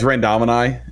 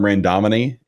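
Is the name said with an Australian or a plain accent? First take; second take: Australian; plain. First: The name is said with an Australian accent. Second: The name is said without an Australian accent. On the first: The speaker calls it right. "as if you were saying it with an Australian accent" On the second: The speaker calls it wrong. "I used to call him Randomini, and he he got after me one time"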